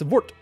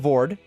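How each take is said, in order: First: The word ends in a d-softened t sound. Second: The word ends in a plain d sound. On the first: The speaker calls it right. "It's Vort. ... The D, like, softens the T almost" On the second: The speaker calls it wrong. "it's not Vord"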